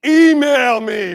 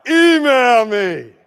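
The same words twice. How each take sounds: First: Slow, loud, dismissive shout; slow loud brush-off; curt shout. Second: Slow, loud, curt; slow loud sign-like brush-off; rude brush-off. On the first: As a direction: bark it like a brush-off. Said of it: "what do we say as school principals". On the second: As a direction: say it like a posted sign. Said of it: "That's a little rude". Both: Shown as a demonstration.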